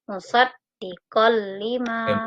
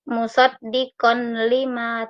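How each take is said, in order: First: The n sound merges into the l. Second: The n sound is kept before the l. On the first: The speaker calls it right. "fathah tain dimasukkan ke dalam huruf lam" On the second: The speaker calls it wrong. "Tidak boleh dibaca"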